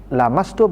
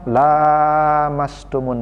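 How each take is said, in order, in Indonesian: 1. Vokal pertama dibaca pendek. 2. Vokal pertama dibaca panjang. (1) "dia baca pendek" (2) "dia membaca panjang"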